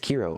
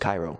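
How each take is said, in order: First: The name is said unlike the city Cairo. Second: The name is said like the city Cairo. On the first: The speaker calls it right. "It's Kiro apparently" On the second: The speaker calls it wrong. "I thought it was Cairo"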